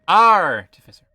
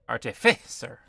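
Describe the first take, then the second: First: The stress is on the first syllable. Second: The stress is on the second syllable. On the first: "The stress is either on A R" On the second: "or on the F I"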